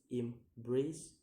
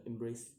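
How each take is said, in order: First: "embrace" in two beats, second rising; second-syllable stress. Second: Said in the usual way. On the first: Shown as a demonstration. Teacher giving an example, "embrace" split and rising. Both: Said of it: "put on the second".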